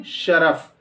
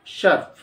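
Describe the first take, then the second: First: शरफ as two syllables, sha-raf; correct pronunciation. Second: शर्फ as one syllable, sharf; common mispronunciation. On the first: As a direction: say शरफ with a short a after r. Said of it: "रे पर ज़बर के साथ". (शरफ, रे पर ज़बर के साथ) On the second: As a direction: say शर्फ with no vowel after r. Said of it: "शर्फ नहीं". (शर्फ, रे पर जज़्म के साथ) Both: Shown as a demonstration.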